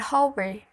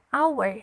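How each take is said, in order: First: The word begins with an audible h sound. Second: The word begins directly with a vowel sound. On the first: The speaker calls it wrong. "Bukan hour" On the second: The speaker calls it right. "bunyinya huruf hidup"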